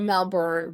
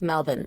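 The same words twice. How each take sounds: First: Melbourne is said with an American pronunciation. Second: Melbourne is said with an Australian pronunciation. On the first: This is how people at home say it. "We're Melbourne" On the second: This is how locals in Australia say it. "but they're like Melbourne"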